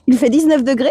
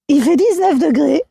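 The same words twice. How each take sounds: First: The voice is fairly clear and not broken. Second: The voice is exaggeratedly hoarse and broken. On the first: "je récupère ma voix, j'arrive plus à refaire" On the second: "Je vais exagérer ma voix"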